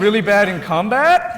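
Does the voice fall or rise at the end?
rise. The voice rises at the end.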